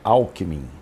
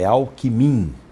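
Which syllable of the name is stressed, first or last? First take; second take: first; last. First: The stress is on the first syllable. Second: The stress is on the last syllable. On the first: The speaker calls it wrong. "palavra paroxítona não ganha eleição" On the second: The speaker calls it right. "só oxítona, então é Alckmin"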